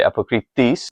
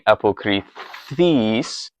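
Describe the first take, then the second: First: The th sound is short, tongue bounced off. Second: The th sound is drawn out and prolonged. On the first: The speaker calls it right. "you're going to sort of bounce your tongue off of it" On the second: The speaker calls it wrong. "instead of it being a prolonged th"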